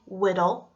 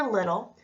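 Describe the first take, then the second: First: "whittle" with W opening the word "little". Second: Said in the usual way. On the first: Shown as a demonstration. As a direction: start "whittle" on W, not L. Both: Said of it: "W for L".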